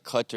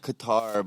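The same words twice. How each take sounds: First: "Qatar" as CUT-er; American pronunciation. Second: "Qatar" as kuh-TAR; "Qatar" with a short first syllable and open TAR; local pronunciation. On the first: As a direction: stress the first syllable of "Qatar". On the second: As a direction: stress the second syllable of "Qatar". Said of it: "they actually say". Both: Shown as a demonstration.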